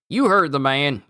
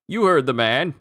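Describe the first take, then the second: First: It is read in a Southern American accent. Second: It is read in the speaker's plain accent.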